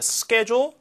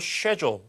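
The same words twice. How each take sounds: First: It is said with an American pronunciation. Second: It is said with a British pronunciation.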